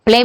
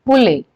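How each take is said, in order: First: Said in the usual way. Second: पुले for प्ले, an extra vowel after the p; प्ले stretched into two syllables, पुले; added sound. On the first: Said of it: "प्ले ना बोल करके". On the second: Shown as a demonstration. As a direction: say पुले, splitting the pl with an u. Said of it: "अलग से जो है sound को add".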